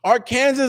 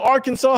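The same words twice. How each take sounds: First: Arkansas said as "ar-KAN-ziz"; spelling pronunciation. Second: Arkansas said as "AR-kan-saw"; standard pronunciation. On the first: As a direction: say Arkansas like "Ar" plus "Kansas". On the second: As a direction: end Arkansas in "saw", silent final s. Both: Shown as a demonstration. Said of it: "however you grew up pronouncing it".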